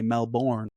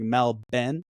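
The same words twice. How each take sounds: First: It is said in an American accent. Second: It is said in an Australian accent. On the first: "You guys say Melbourne" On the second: "We say like it's almost like Melbourne"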